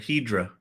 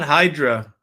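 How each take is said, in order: First: The first vowel sounds like 'eh'. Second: The first vowel sounds like 'eye'. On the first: The speaker calls it right. "It's Hedra or Hedra, not Hydra" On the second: The speaker calls it wrong. "It's not Hydra"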